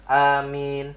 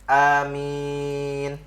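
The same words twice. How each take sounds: First: The second vowel is held briefly. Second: The second vowel is held very long. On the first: "boleh dua"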